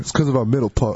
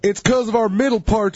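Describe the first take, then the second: First: Spoken in an imitated African American English accent. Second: Spoken in an imitated rural Southern American accent. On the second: "do a redneck voice"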